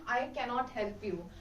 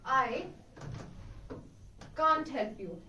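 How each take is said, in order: First: Cannot is said in full as two syllables. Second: Cannot is contracted to a single syllable. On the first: It sounds formal, like reading aloud. The speaker calls it wrong. "it sounds like a bookish language, like you are reading something" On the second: It sounds natural and fluent. The speaker calls it right. "to add a natural flow to it"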